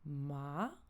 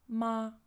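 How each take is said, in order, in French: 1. Le ton monte du bas vers le haut. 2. Le ton reste haut et plat du début à la fin. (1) "il part du bas vers le haut" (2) "assez haut perché et tout plat"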